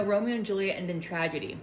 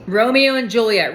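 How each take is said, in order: First: Much softer, dropping away; deflated realisation. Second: Louder, punchy delivery; eager announcement. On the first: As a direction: back down quietly as the doubt lands. Realises the story ends badly. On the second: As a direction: announce the famous pair with gusto. Picks the couple eagerly. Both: Real, not acted.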